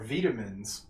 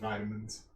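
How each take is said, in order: First: It is said with a British pronunciation. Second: It is said with an American pronunciation.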